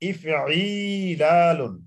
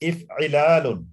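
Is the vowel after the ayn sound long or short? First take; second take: long; short. First: The vowel after the ayn is drawn out long. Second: The vowel after the ayn is short. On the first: "পাঁচে গিয়ে আইন টান আছে" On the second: "চার হলো ইফইলালুন, আইন টান নাই"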